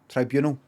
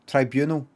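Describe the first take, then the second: The two takes are said the same way.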